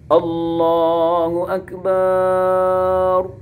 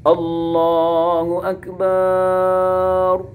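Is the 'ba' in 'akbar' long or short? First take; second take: long; long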